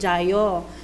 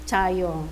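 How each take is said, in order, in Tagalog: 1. Nagsisimula ang salita sa tunog na 'j' na may tinig. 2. Nagsisimula ang salita sa tunog na 'ch' na walang tinig. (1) "Kahit jayo yung, sa spelling" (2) "Pero pag binigkas na nila"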